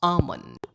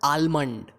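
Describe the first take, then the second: First: The L sound is silent in the word. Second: The L sound is pronounced in the word. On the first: The speaker calls it right. "इसमें L जो है वो silent है" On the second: The speaker calls it wrong. "It's not almond"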